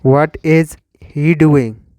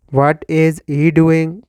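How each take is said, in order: Both takes have the same delivery.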